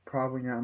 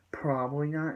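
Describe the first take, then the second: First: Said in the usual way. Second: "Probably not" thrown back as a question; questioning echo. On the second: Retold or imitated. Mariana echoes the answer in disbelief.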